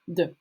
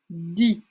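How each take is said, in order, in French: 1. Le mot se termine par un 'uh' bref. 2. Le mot se termine par un 'ee'. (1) "Et là, on va dire de" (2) "Du coup, on va prononcer di"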